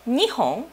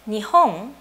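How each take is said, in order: First: It has the pitch accent of 'two long items'. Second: It has the pitch accent of the word 'Japan'. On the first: It counts two long, thin objects. "two something long and skinny items" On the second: It names the country Japan.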